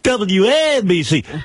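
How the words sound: It is said in a bright, cheerful tone. It follows a happy song. "when you're a happy song"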